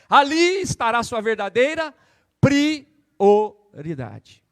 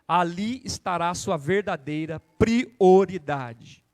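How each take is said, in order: First: It is spoken very slowly. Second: It is spoken at a normal pace.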